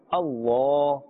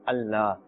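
First: The l sound is heavy, with a full mouth. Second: The l sound is light and thin. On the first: The speaker calls it right. "With a full mouth and a thick tone" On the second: The speaker calls it wrong. "a thin tone, Allah. Allah will be incorrect"

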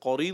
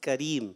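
First: The first consonant is a heavy, back k sound. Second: The first consonant is a light, front k sound. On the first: The speaker calls it wrong. "قریم نہیں پڑھنا" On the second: The speaker calls it right. "کریم ٹھیک ہے"

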